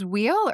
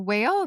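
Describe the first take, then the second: First: The name sounds like the word wheel. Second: The name sounds like the word whale. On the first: "I thought it was wheel" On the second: "or whale"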